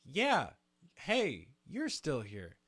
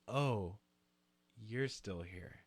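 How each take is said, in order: First: Hear it as a happy greeting; misheard as friendly. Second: Quiet, cold flat letdown; dismissive. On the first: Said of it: "I hear it as". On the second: Partygoer brushes off the unwanted guest, quiet and cold. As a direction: make clear they're not welcome. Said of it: "In that exact tone". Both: Retold or imitated.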